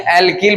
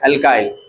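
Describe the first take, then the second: First: The second syllable sounds like 'keel'. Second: The second syllable sounds like 'kile'.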